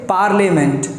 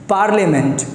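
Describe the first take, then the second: The two takes are said the same way.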